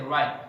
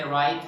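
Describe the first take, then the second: First: "right" with the final T held back; unreleased American T in "right"; stop T. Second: "right" with an audible final T; fully released T in "right". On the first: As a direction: cut "right" off at the T. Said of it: "they say right". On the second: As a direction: finish "right" on a crisp T puff. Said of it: "They didn't say right". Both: Shown as a demonstration.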